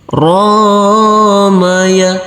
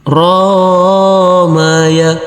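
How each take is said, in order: The two takes are said the same way.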